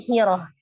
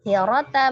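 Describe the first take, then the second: First: The word ends with an h sound. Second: The word ends with a t sound and vowel. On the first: The reader stops on this word. "menjadi sukun bunyi huruf ha" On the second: The reading continues without stopping. "tak marbutoh ketika diwakafkan"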